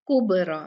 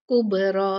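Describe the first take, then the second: First: कुबरा with the बा not bounced; wrong take, flat ब; flat baa. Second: कुबरा with ब jolted, qalqala echo; bounced baa. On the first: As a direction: say कुबरा smoothly, no echo on ब. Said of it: "इसको कुबरा नहीं पढ़ेंगे". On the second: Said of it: "झटके से पढ़ा जाता है". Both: Shown as a demonstration.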